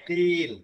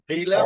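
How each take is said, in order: First: The word ends on a bare consonant. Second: The word ends with a final vowel.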